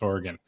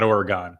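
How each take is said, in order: First: "Oregon" said OR-uh-gun, with a light last syllable; correct Oregon. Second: "Oregon" said ore-uh-GONE, last syllable like gone; wrong Oregon. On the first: Host giving the local way of saying the state, OR-uh-gun, softly. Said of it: "it's Oregon". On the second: Host showing the wrong East Coast way of saying the state, ore-uh-GONE. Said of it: "It's not Oregon". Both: Shown as a demonstration.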